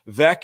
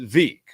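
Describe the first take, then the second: First: The name rhymes with the word wreck. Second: The name does not rhyme with wreck. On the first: The speaker calls it right. "Veeck is in Wreck" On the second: The speaker calls it wrong. "he mispronounced Veeck. It was Veek"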